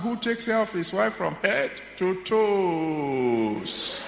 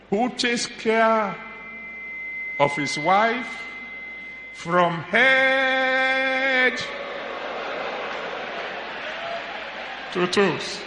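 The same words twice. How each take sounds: First: The word toes is stressed. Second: The word head is stressed. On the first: The wife wants a pair of shoes. "If the pair of shoes you want, you change the emphasis" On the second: The wife wants something for her head. "When he hears the emphasis on the head"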